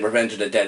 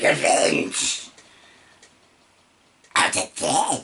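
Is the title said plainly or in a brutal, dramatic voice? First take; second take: plainly; brutal. First: It is said in a plain, ordinary voice. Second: It is said in a brutal, dramatic voice.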